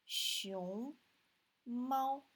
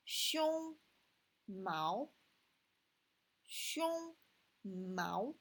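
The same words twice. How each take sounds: First: "Xiong" rising in the second tone, "mao" high and level in the first; correct tones. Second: Deliberately mangle the tones; wrong tones. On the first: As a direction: say panda in Chinese with proper tones. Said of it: "Xiong is second tone here, and mao first tone". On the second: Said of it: "if we just change the tone". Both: Shown as a demonstration.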